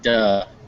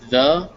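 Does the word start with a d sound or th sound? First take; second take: d sound; th sound. First: It starts with a hard d sound. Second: It starts with a soft th sound. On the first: The speaker calls it wrong. "not duh" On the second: The speaker calls it right. "you want to make sure that it's the"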